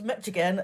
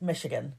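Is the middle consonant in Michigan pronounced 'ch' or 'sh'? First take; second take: ch; sh. First: The middle consonant sounds like 'ch'. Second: The middle consonant sounds like 'sh'. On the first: The speaker calls it wrong. "I thought it was Michigan" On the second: The speaker calls it right. "it's actually pronounced Michigan"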